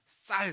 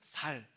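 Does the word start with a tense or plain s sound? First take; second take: tense; plain. First: The word starts with a tense s sound. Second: The word starts with a plain s sound. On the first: The speaker calls it right. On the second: The speaker calls it wrong.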